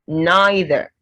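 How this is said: It is said in a British accent.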